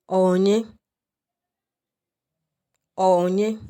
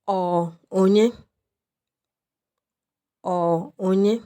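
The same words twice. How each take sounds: The two takes are said the same way.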